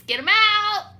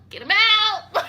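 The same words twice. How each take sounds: First: High, loud demand; mock yell. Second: High loud demand with falling end; insist, louder; mock yell again, firmer. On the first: To the leasing office, a loud high demand. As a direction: shout him out the door. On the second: To the leasing office, a louder falling demand.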